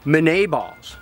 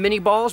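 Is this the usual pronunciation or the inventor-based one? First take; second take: inventor-based; usual. First: The first word is said like the inventor's name. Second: The first word is said the usual way. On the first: The speaker calls it right. "So they should probably be Minet balls" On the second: The speaker calls it wrong. "theoretically we call them mini balls"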